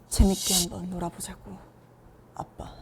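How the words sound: It is said in a very deep voice.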